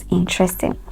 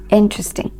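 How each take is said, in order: First: "interesting" as "in-TRES-ting"; "interesting" with a full middle vowel; wrong stress. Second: "interesting" as "IN-trus-ting"; "interesting" with the middle squeezed short; stress on first syllable. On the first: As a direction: put the weight on TRES in "interesting". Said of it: "not interesting". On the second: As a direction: hit the IN of "interesting". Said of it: "stress is on the first syllable". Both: Shown as a demonstration.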